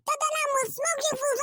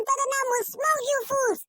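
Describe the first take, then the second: First: Said in the usual way. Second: Taunting shout. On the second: Real, not acted. Taunting rival fans, repeated.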